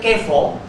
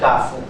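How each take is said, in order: First: The first vowel is a mid 'e' sound. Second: The first vowel is an open 'a' sound. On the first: The speaker calls it wrong. "orang Subrajaya pun kata kefo" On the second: The speaker calls it right. "Sebutan yang betulnya kafu"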